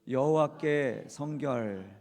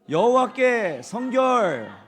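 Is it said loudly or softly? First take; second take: softly; loudly. First: It is said softly, without much volume. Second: It is said loudly, with strong volume.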